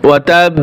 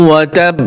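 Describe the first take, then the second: No difference in how they are said.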